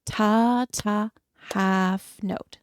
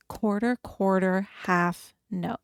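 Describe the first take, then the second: First: Clapping along, counted aloud; rhythmic counting. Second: Rhythmic counting. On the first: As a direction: count it in time. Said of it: "we'll do it together". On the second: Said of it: "It's gonna be quarter, quarter, half note". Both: Shown as a demonstration.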